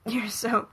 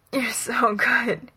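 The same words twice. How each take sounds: First: Said in the usual way. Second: "you're so good" slow, breaking into a choked whisper; groaned and choked. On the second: A narrator's reading. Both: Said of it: "he groans and chokes".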